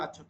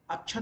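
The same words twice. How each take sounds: First: "अक्षत" meant as "akshat"; formal Sanskrit form of "अक्षत", middle cluster "ksh"; formal ksh conjunct. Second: "अक्षत" said as "achhat"; colloquial chh sound. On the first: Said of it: "ऐसे वाला अक्षत होता है". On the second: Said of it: "अक्षत नहीं होता है". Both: Shown as a demonstration.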